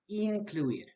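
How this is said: The vowels are pronounced with a Spanish accent. The speaker calls it right. "The correct pronunciation is incluir"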